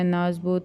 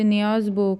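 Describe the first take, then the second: First: The name starts with a short naaz syllable. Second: The name starts with an added niyaaz syllable. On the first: This is the actual name. The speaker calls it right. "वो उसका actual नाम है" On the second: This is how locals say it. The speaker calls it wrong. "हमारे यहाँ उसे नियाज़बो कहा जाता है"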